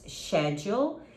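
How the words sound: It is said with a British pronunciation.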